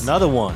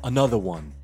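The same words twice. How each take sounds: First: It is said in a plain, ordinary voice. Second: It is said in a smooth, sensual voice. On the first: The speaker calls it wrong. "That was a horrible impression of him" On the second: The speaker calls it right. "A very like sensual [name]"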